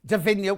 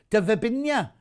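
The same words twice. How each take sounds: First: Davinia said properly, no extra b syllable; Davinia, the corrected pronunciation; correct name. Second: Davibinia read as spelt, with a b in the middle; Davibinia, the viewer's typo read aloud; reading the misspelling. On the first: Shown as a demonstration. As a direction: say Davinia cleanly as the real name. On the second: Retold or imitated. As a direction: say Davibinia with the extra bi syllable. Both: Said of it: "you can't even write your own name".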